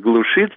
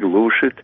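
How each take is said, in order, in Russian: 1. Ударение падает на окончание. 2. Ударение падает на корень. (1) "было только «глушит»" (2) "перенос ударения на корень"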